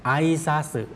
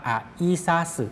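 First: "ไอซาสึ" with the first vowels blended; quick pronunciation. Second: "อะอิซาสึ" with "อะ" and "อิ" kept apart; slow pronunciation. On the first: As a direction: say "ไอซาสึ" quickly as one joined word. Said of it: "แต่ออกเสียงเร็ว". (ออกเสียง "ไอซาสึ" เร็ว ควบเสียง) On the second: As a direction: say "อะอิซาสึ" slowly, syllable by syllable. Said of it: "ออกเสียงช้าๆ ออกเสียงว่า". (ออกเสียง "อะอิซาสึ" ช้าๆ แยกพยางค์) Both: Shown as a demonstration.

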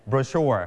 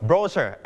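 First: Slow "brochure", stressed bro-SHURE; short bro, full SHURE in "brochure"; American stress on second syllable. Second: Slow "brochure", stressed BRO-sher; weight on BRO, weak "sher" in "brochure"; British stress on first syllable. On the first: Teacher sets American against British, "brochure" stressed on SHURE. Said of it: "เน้นที่ พยางค์ที่สอง". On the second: Teacher sets British against American, "brochure" stressed on BRO. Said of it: "คนอังกฤษเขาจะเน้นที่พยางค์แรก". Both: Shown as a demonstration.

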